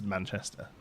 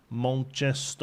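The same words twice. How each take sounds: First: Said in the usual way. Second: Slow, exaggerated Mancunian, A's turned to O's; Manchester accent. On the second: Shown as a demonstration. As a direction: stretch out "Manchester" in broad Mancunian, like "Monchestoh". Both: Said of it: "replace all the A's with O's".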